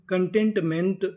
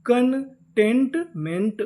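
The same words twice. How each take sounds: First: Said in the usual way. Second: containment stretched very slowly, syllable by syllable; drawn-out demo. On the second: Shown as a demonstration. Teacher slowly sounding out the whole word for students. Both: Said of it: "पूरी meaning".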